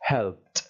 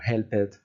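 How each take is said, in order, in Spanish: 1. La terminación es solo un sonido t. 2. La terminación se pronuncia como una sílaba extra. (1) "una p y una t, y va a sonar así" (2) "mucho ojo a no pronunciar cosas como helped"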